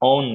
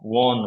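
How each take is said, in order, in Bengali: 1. শব্দটি একটি স্বরধ্বনি দিয়ে শুরু হয়। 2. শব্দটি w ধ্বনি দিয়ে শুরু হয়। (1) "own না"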